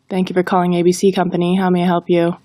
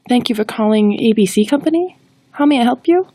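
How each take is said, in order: First: It is read in a flat monotone. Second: It sounds hesitant and unsure. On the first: "If we read it in a monotone, it falls flat" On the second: "If we are unsure of the greeting, we won't sound confident"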